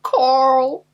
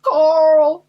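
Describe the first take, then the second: First: It is shouted like the Walking Dead character. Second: It is shouted like the Walking Dead character.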